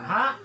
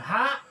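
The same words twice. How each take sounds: First: It starts with a glottal stop. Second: It starts with a throaty pharyngeal sound. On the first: "Hamzah ha" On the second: "ain ha"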